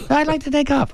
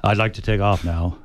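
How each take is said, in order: First: High squeaky nervous voice. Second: Said in the usual way. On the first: Shown as a demonstration. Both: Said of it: "try not to have a squeaky voice".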